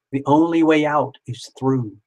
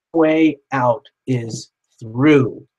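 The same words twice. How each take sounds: First: Said in the usual way. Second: Slowly, leaning on each word; slow emphatic. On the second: Acted. Reminding viewers of the saying, slow and emphatic. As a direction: spell the motto out slowly.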